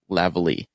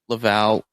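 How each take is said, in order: First: The name is said with three syllables. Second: The name is said with two syllables. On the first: "or Lavalley?" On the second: "does he pronounce it Laval"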